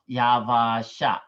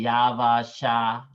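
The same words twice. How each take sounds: First: The vowel in 'ya' is short. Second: The vowel in 'ya' is long. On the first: The speaker calls it wrong. "not Yavasha" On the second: The speaker calls it right. "this is it gotta be a long, long vowel"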